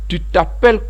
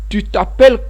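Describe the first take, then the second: No difference in how they are said.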